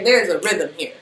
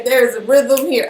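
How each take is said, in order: First: Said in the usual way. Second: Goofy emphasis. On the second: Shown as a demonstration. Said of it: "why I'm being such a goofy".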